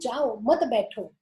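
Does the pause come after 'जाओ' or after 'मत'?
after मत. The pause comes after मत: don't go, sit.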